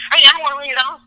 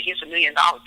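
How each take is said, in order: First: High and loud, hammed-up rejection; mock indignant shout; mock defiant refusal. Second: Said in the usual way. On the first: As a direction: scoff at the offer like a stubborn fool. Refusing under stress, mocked.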